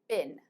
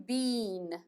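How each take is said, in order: First: It is said with an American accent. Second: It is said with a British accent. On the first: "American pronunciation" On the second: "British pronunciation"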